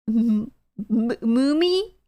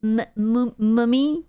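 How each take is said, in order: First: Mummy said moo-mee with oo sound, rising; asking chat how to say mummy, testing; second try at mummy. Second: Mummy said with short uh sound, rising; asking chat how to say mummy, testing; trying out mummy. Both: Shown as a demonstration. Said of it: "how do you pronounce mummy".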